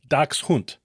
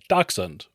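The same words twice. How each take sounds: First: The word is said with a German-style pronunciation. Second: The word is said with an American pronunciation. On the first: "if you want to sound like you know German, which I do not, it's pronounced closer to" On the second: "Most Americans say"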